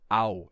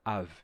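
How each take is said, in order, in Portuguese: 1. Termina em uma vogal parecida com u. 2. Termina em uma consoante v. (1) "isso não era ao" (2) "isso era av"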